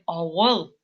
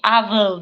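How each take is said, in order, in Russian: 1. Средний согласный — звук w. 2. Средний согласный — звук v. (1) "Мы говорим ауэл" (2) "ни в коем случае не авел, да, это будет неправильно"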